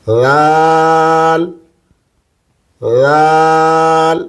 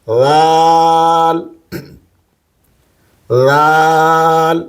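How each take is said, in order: Both takes have the same delivery.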